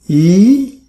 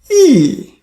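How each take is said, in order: First: The pitch rises from middle to high. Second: The pitch falls sharply from high to low. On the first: "Second tone, E, E is mm, going up" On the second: "Fourth tone, E, E. You see the tone from top to bottom"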